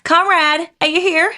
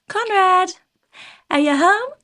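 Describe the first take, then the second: First: Put-on high, raised American-accented call. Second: High call into a house. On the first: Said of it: "do that in an American accent". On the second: Acted. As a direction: call out to see who's home, own accent. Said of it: "she yells out to Conrad".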